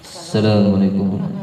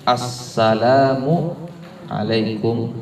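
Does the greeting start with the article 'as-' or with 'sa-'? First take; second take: sa-; as-. First: The greeting starts without the article, with 'sa-'. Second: The greeting starts with the article sound 'as-'. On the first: The speaker calls it wrong. "Jangan mengucap" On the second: The speaker calls it right. "Berarti mengucapkannya assalamu alaikum warahmatullah"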